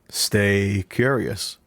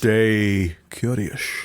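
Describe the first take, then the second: First: The s sounds are plain, ordinary s sounds. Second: The s sounds are slurred into sh sounds. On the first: The speaker calls it wrong. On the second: The speaker calls it right.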